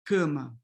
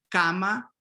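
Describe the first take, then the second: First: Cama with closed raised a; Portuguese cama, closed a. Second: Cama with open Spanish a; Spanish-style Cama, open a. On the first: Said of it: "closing this A". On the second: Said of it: "in Spanish, you have A". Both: Shown as a demonstration.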